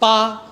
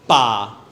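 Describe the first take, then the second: First: The pitch stays high. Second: The pitch falls downward. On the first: "第一即係高嘅" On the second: "如果係第四呢，即係向下"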